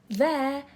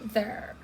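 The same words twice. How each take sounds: First: The vowel is said more open, British style. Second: The vowel is said less open, American style. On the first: "um pouco mais aberto, é do British" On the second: "O inglês americano, ele já puxa um pouquinho mais pra there"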